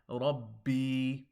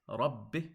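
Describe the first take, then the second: First: The final vowel is drawn out long. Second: The final vowel is kept short. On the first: The speaker calls it wrong. "if you elongate or make an addition to this word, you make it Rabbi" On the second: The speaker calls it right. "It's Rabbi"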